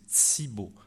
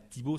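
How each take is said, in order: First: The first consonant sounds like ts. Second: The first consonant is a plain t. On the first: This is how it is said in Quebec. The speaker calls it right. "on prononce ts et dz devant i et u" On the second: This is how it is said outside Quebec. The speaker calls it wrong. "c'est pas Thibaut"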